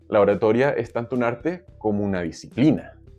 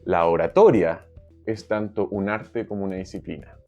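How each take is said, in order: First: The stress is on "disciplina". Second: The stress is on "tanto".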